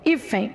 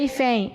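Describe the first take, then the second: First: The stress is on the second-to-last syllable. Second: The stress is on the last syllable. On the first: The speaker calls it right. "A sílaba tônica é a penúltima" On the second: The speaker calls it wrong. "Não é"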